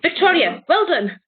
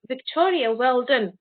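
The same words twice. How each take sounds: First: It is said in a marked, unclear tone. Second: It is said in a plain, neutral tone. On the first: It could be pride, sarcasm or anger. "you don't even know if I'm actually proud of you or if I'm being sarcastic or if I'm angry at you" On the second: Simple praise is meant. "that's me saying it in a normal tone"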